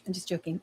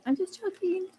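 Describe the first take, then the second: First: "I'm just joking" mumbled much softer; muttered. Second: "I'm just joking" said much higher and softer; squeaky playful. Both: Real, not acted.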